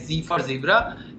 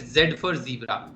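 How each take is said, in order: First: The letter is said the American way. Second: The letter is said the Indian way.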